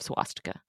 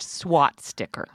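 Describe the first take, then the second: First: The word ends with a 'stika' sound. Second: The word ends with a 'sticker' sound. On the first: The speaker calls it right. "Nancy's pronunciation of swastika" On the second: The speaker calls it wrong. "It's pronounced SWAT sticker"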